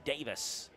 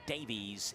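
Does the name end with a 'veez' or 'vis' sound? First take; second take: vis; veez. First: The name ends with a 'vis' sound. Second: The name ends with a 'veez' sound. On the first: The speaker calls it right. "it's Davis County" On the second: The speaker calls it wrong. "It's not Davies"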